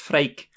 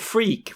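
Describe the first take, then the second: First: The name is said with a Dutch vowel sound. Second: The name is said like the English word 'freak'. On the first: It is the name's actual pronunciation. The speaker calls it right. "apparently it's Freek" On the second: It sounds like an insult. The speaker calls it wrong. "an English inclined person would call him Freak"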